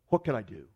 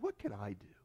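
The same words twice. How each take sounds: First: The stress is on do. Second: The stress is on I.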